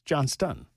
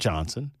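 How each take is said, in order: First: The name is said with a T sound. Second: The name is said without a T sound. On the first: The speaker calls it right. "It's Johnston" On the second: The speaker calls it wrong. "It's not Johnson"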